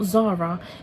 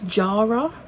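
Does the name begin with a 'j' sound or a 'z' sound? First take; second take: z sound; j sound. First: The name begins with a 'z' sound. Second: The name begins with a 'j' sound. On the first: The speaker calls it wrong. "I've been pronouncing this wrong" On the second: The speaker calls it right. "it's Jara"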